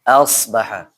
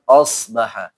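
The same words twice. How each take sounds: First: The first vowel sounds like a clear a. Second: The first vowel sounds dark, like an o. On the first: The speaker calls it right. "Tapi pakai a" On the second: The speaker calls it wrong. "jangan asbaha. Jangan pakai o ya"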